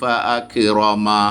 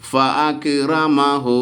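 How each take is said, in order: First: The word ends without the final 'hu' syllable. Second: The word ends with the final 'hu' syllable. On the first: The reciter stops after this word. "ഫഅക്റമ നിർത്തുമ്പോൾ അങ്ങനെയാണ്" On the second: The reciter continues without stopping. "നിർത്താതെ ഓതുമ്പോൾ ഫഅക്റമഹു എന്ന് പറഞ്ഞ് ഓതണം"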